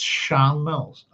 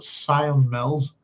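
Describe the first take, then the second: First: The first word is said as 'Shan'. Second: The first word is said as 'Sion'. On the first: The speaker calls it right. "it's Shan Mills" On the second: The speaker calls it wrong. "a lot of people in Northern Ireland would mispronounce it"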